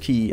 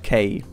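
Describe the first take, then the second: First: The vowel sounds like the 'ee' in 'see'. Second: The vowel sounds like the 'ay' in 'say'. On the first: The speaker calls it right. "the pronunciation of uh, key is key" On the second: The speaker calls it wrong. "and not K, like I, I said"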